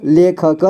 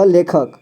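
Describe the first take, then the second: First: लेखक split as ले, ख, क; syllable by syllable. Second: Said in the usual way. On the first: Shown as a demonstration. Teacher showing learners लेखक, sounded out in parts. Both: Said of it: "इसे पढ़ेंगे".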